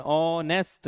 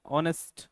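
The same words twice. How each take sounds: First: honest split as ऑ, then nest; broken-up word. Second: Said in the usual way. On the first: Shown as a demonstration. Teacher asking students if they said it this way, honest broken in two. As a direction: say honest with a break after the first syllable ऑ. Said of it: "ऐसे बोला आपने". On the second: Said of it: "आपने break नहीं लिया honest में".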